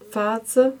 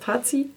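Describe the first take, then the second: First: The name ends with an 'er' sound. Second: The name ends with an 'ee' sound. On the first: This is how the band name is actually pronounced. The speaker calls it right. "aber es wird Fazer gesprochen" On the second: This is how a German reader would read it. The speaker calls it wrong. "auf Deutsch wäre es Fazi"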